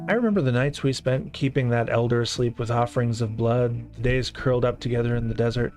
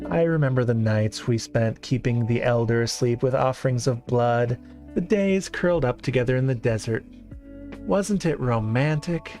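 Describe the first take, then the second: First: It is read in a plain, neutral tone. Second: It is read in a wistful, longing tone.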